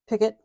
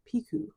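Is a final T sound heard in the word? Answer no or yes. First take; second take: yes; no. First: The word ends with a clear T sound. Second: The word ends in a vowel, no T sound. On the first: The speaker calls it wrong. "I used to call it a picket" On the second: The speaker calls it right. "you don't pronounce the T in it"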